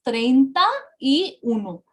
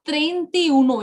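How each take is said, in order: First: "treinta y uno" as three distinct words; spaced-out "treinta y uno", each word clear; correct separate words. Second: "treinta y uno" run together as "trentiuno"; mistaken joined form. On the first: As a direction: keep the full "ta" in "treinta y uno", pausing before "y". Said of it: "it is treinta y uno". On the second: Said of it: "it is not treinta y uno". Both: Shown as a demonstration.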